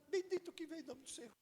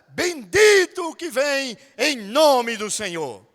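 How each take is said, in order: First: It is said flatly without raising the voice. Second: It is said loudly with lively emphasis. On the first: The speaker calls it wrong. "até o jumento que Jesus estava, ia protestar" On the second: The speaker calls it right. "Você subiu a voz, você botou ênfase na voz"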